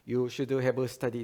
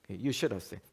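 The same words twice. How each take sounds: First: Each word is pronounced fully and separately. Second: Should and have blend, with have barely heard. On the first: "이렇게 안 읽었죠?" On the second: "should 하고 have를 합쳐서요"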